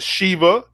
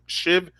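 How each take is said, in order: First: The word ends with a final 'a' vowel. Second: The word ends without a final vowel. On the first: The speaker calls it wrong. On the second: The speaker calls it right.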